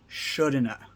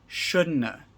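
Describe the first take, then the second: First: 'Have' is reduced to a weak 'a' sound. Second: The same.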